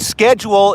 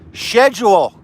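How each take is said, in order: First: Schedule is said the American way. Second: Schedule is said the European way. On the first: The speaker calls it right. "the word schedule" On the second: The speaker calls it wrong. "is not pronounced schedule"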